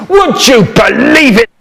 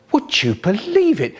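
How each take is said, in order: First: Same line yelled much higher and louder; hammed-up shouted repeat. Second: Said in the usual way. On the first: Shown as a demonstration. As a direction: blast the question out the second time. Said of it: "repeat, second louder take". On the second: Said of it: "repeat of same line".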